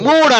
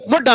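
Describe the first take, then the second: First: The vowel is a long oo sound. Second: The vowel is a short u sound. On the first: The speaker calls it right. "మూడ్ అనాలి" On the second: The speaker calls it wrong. "ముడ్ అనకూడదు"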